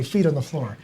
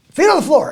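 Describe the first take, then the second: First: Said in the usual way. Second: High, loud wake-up holler; imitated loud, high-pitched call; mock shout. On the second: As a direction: belt it out like a morning rallying cry. Retold friend's morning call.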